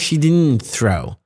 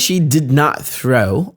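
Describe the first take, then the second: First: Did not is shortened to one syllable, didn't. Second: Did not is said as two full words.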